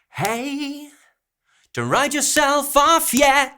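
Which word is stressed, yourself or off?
yourself. Stress falls on hey, self and yet, not off. The speaker calls it wrong. "we've got stresses on the hey, on the self, and on the yet"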